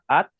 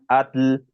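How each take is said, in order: First: The word ends in a plain T. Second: The word ends in a Spanish-style TL. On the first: The speaker calls it right. "para decir agua, at" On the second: The speaker calls it wrong. "dicen atl"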